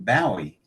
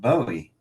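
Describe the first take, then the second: First: The name rhymes with Zowie. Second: The name does not rhyme with Zowie. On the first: The speaker calls it right. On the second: The speaker calls it wrong.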